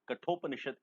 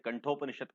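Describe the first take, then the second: First: The first syllable has no nasal sound. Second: The first syllable has a nasal n sound. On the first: The speaker calls it right. "इसका सही उच्चारण है" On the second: The speaker calls it wrong. "कुछ लोग इसे कंठोपनिषद कहते हैं, गलत है"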